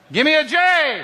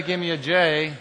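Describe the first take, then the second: First: High, loud stadium cheer call; cheer shout. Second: Said in the usual way. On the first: Real, not acted. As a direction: shout it up to the rafters for the crowd. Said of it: "have a little Jesus cheer". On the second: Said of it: "And when I say".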